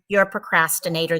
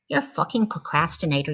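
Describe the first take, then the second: First: It is said in a calm, supportive tone. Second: It is said in a harsh, angry tone.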